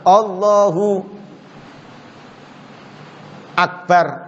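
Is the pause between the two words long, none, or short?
long. There is a long pause between the words.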